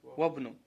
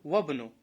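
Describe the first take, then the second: First: The 'i' is dropped, joining into 'wabnu'. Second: The 'i' is dropped, joining into 'wabnu'.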